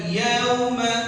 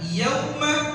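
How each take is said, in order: First: The 'au' vowel is dragged out long. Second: The 'au' vowel is kept short. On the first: The speaker calls it wrong. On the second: The speaker calls it right.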